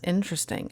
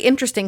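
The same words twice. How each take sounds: First: It sounds flat and dismissive. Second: It sounds warm and sincere. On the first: It is strange or unimpressive. "I don't say interesting like, "Oh, that's interesting."" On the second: It is genuinely engaging. "I say it like they were very interesting"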